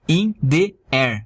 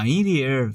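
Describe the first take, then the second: First: The words are said separately, one by one. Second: The words are run together in one stream. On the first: "Fica bem diferente do que" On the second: "Aqui você junta tudo, ó"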